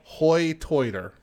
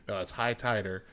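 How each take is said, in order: First: Hoy Toiter with oy for the long i; High Tider accent. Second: Said in the usual way. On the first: Shown as a demonstration. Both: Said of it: "That's how they pronounce it".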